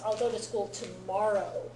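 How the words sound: Tomorrow gets strong emphasis.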